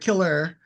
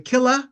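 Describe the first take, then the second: First: The word ends in an 'er' sound. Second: The word ends in a short 'a' sound.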